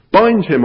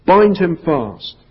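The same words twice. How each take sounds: First: Sharp, higher, louder bark of an order; the witch repeating her order to the hags, louder; repeated command. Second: Slow, loud, high order; witch command. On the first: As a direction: snap it out impatiently, much higher. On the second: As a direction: give the command slowly and coldly. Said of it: "she cried". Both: A narrator's reading.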